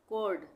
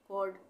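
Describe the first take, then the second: Both takes have the same delivery.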